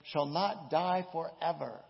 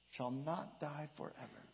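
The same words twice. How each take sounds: First: Loud proclamation. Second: Quiet echo. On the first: Preacher gives the literal reading, loud and slow. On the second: Preacher echoes the literal reading, soft and hushed. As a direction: softly repeat it, letting it sink in. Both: Shown as a demonstration. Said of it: "Literally, it says".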